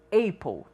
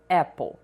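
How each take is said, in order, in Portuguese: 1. A primeira vogal soa como o nome da letra A. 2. A primeira vogal é diferente do nome da letra A. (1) "nós não pronunciamos apple" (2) "e sim apple"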